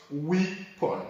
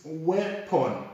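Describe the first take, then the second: First: "weapon" with long EE, wee-pon; "weapon" con la i lunga, wii-pon; wrong weapon. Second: "weapon" with short E, wep-un; "weapon" con la e breve, wep-un; right weapon. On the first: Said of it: "and not". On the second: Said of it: "is weapon and not". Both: Shown as a demonstration.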